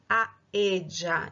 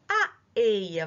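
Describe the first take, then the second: First: It is said with an Argentine accent. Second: It is said with a non-Argentine accent.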